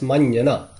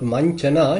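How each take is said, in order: First: The middle consonant sounds like 'j'. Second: The middle consonant sounds like 'ch'. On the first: The speaker calls it right. "it's manjana" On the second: The speaker calls it wrong. "It's not manchana"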